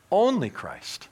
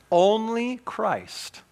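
First: Said in the usual way. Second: Only drawn out very slowly, falling; stress on only. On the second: Real, not acted. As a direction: lean hard on Only, slow. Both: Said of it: "repeated for emphasis".

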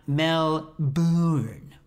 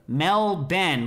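First: Melbourne as mel-BOORN, long drawn second vowel; very slow Melbourne, stretch "bourne" into a long oo; wrong pronunciation. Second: Melbourne said MEL-BEN, second syllable like Ben; two clear syllables, Melbourne as "Mel-Ben"; local pronunciation. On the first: Host showing what not to say, wrong pronunciation. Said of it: "with, like, a lot of O's". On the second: Host showing the name as he was told, local pronunciation. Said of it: "like my brother Ben". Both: Shown as a demonstration.

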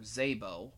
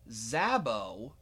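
First: Zabo said as ZAY-boh, long A; first syllable of Zabo rhymes with "say"; alternate pronunciation. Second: Zabo said as ZAB-oh, short A; first syllable of Zabo rhymes with "lab"; alternate pronunciation. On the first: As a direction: say Zabo with the A of "day". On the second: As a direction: say Zabo with the A of "cab". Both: Shown as a demonstration. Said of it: "not sure how it's pronounced".

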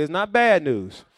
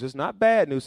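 First: Louder, leading the crowd in repeating; congregation call. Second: Said in the usual way. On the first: Shown as a demonstration.

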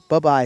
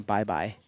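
First: "bye-bye" with the first syllable reduced to buh; clipped "buh-bye". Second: Said in the usual way. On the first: Shown as a demonstration. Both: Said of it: "bye-bye is different than bye-bye".

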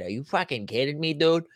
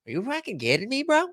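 First: Put-on a mild first pass at a Boston accent; lightly Boston, almost his own voice; understated Boston accent. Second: Put-on higher, heavier Boston accent; full Boston accent, pitched higher. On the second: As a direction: push the Boston accent harder on the repeat. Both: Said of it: "That's Boston".

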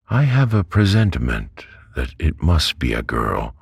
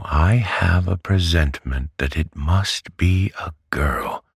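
First: Said in the usual way. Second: Whispered, higher, insisting; Betsy whispers her presentiment insistently, higher. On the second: A narrator's reading. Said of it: "I tell you".

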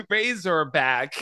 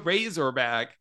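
First: "Razorback" drawn out slowly and louder in Aussie style; accent attempt. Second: "Razorback" said slowly in mock Aussie; accent attempt. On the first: Host tries again, a slow hammed-up Aussie accent. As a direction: stretch "Razorback" like a hammed-up Australian. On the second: Host retries the title for his guest in mock Aussie. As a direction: lean into "Razorback" with a laugh. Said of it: "That's pretty good". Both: Shown as a demonstration.

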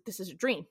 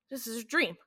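First: Rising question on "dream?", unsure. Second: Falling, settled "dream."; realizing. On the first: Bobby asks Dean in disbelief, rising question. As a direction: ask "this is a dream?" with doubt. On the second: Bobby accepts he is dreaming, falling certainty. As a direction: state "This is a dream." as the truth sinks in. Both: Retold or imitated. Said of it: "So you're saying that".

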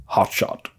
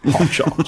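First: A whispered, breathy hot shot, lightly done. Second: Laughing imitation. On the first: Retold or imitated. Imitating [name]'s voice for friends, a soft whispered hot shot. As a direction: hush it out like a movie villain. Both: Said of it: "That's his voice".

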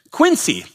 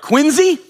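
First: "Quincy" with a crisp s sound; Quincy his own way. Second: High Boston "Quincy", said QUIN-zee with a z; mock Boston accent. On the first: Retold or imitated. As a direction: say "Quincy" as QUIN-see, higher pitched. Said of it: "And I said ... and they said". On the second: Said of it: "I don't know if that accent's good".

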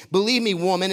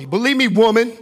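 First: Said in the usual way. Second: Loud, high-pitched outburst at the woman; exaggerated command. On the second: Preacher overplaying Jesus addressing the woman, exaggerated command. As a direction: hit "believe me, woman" loud and high, mock-bossy. Repeats it harshly, then objects.

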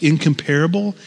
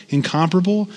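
First: "incomparable" stressed on the third syllable, in-com-PAR-able. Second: "incomparable" stressed on the second syllable, in-COM-parable. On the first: Preacher trying out a word for the congregation, "incomparable" stressed on PAR. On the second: Preacher offering the other pronunciation, "incomparable" stressed on COM. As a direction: say "incomparable" as in-COM-pruh-bul, leaning on COM. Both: Shown as a demonstration. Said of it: "which syllable you put the emphasis".

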